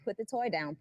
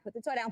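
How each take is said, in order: First: It is said at a normal, calm volume. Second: It is said with a louder, raised voice.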